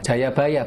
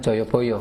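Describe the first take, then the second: First: The name is said with 'a' vowels. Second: The name is said with 'o' vowels. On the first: The speaker calls it right. "Cara bacanya Jayabaya" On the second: The speaker calls it wrong. "bukan Joyoboyo"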